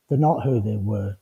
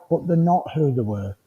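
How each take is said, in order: First: Lower, softer repeat to let it sink in; hushed, lower restatement; quiet echo. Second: Said in the usual way. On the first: Shown as a demonstration. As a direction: drop the voice low and soft for the echo. Quiet emphatic echo of line before.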